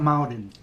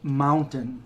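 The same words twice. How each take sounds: First: The middle consonant sounds like a d. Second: The middle consonant is a clear t sound. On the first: The speaker calls it wrong. "not mountain. There's no D in it" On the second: The speaker calls it right. "I'd have to pause to actually say it right"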